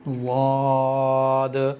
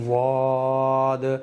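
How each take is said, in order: First: It begins with a single heavy consonant. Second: It begins with a single heavy consonant.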